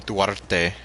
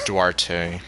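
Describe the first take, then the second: First: The name has a Spanish pronunciation. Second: The name has an English-style pronunciation. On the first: "in Spanish, she would pronounce the name Duarte" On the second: "this is how the game pronounces it"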